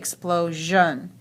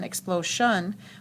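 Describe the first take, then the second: First: The ending has a voiced zhun sound. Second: The ending has a voiceless shun sound. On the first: The speaker calls it right. "We say explosion" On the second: The speaker calls it wrong. "We don't say shun"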